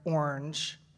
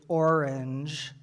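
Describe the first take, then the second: First: The word is said as one syllable. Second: The word is said as two syllables.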